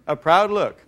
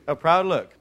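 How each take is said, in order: Both takes have the same delivery.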